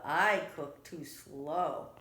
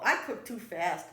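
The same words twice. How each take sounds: First: Slow, lower tortoise voice. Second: Quick, louder rabbit excuse; hurried rabbit. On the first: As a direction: draw each word out like a tortoise. Tortoise Tortuga's slow excuse. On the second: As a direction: rattle it off like a busy rabbit. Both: A narrator's reading.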